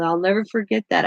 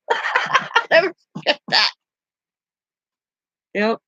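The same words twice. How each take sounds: First: Said in the usual way. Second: Laughing the words out slowly, higher; real laughter through "I'll never forget that". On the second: Real, not acted. Laughing at grandpa's retort.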